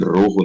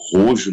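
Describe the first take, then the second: First: The name is pronounced the Spanish way. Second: The name is pronounced the Portuguese way. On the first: "a maneira certa de pronunciar, né? Porque é, é vermelho em espanhol" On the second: "do jeito que tá escrito é o jeito que eles, que eles leem"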